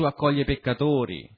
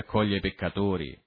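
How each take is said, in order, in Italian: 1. Si dice con un tono gioioso, festoso. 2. Si dice con un tono sprezzante, accusatorio. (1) "dovrebbe essere detto in senso festoso" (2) "lo dicono in senso denigratorio"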